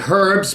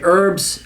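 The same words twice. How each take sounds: First: It is said the Australian way. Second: It is said the American way. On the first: "you guys say herbs" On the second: "but we say herbs"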